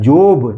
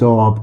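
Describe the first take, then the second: First: The vowel sounds like the 'o' in 'go'. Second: The vowel sounds like the 'o' in 'hot'. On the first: The speaker calls it wrong. "जोब नहीं" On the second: The speaker calls it right. "ये लिखा है जॉब"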